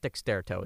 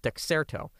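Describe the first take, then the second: First: A t sound follows the x sound. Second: No t sound follows the x sound. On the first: The speaker calls it wrong. "I always say Dexterto. It's not Dexterto" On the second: The speaker calls it right. "It's Dexerto"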